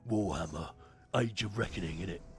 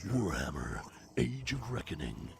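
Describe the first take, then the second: First: It is said in a Cockney accent. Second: It is said in an American accent.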